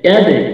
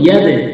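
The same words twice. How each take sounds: The two takes are said the same way.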